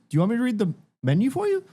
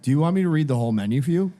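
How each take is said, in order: First: It is said in a sweet, friendly tone. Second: It is said in a rude, annoyed tone.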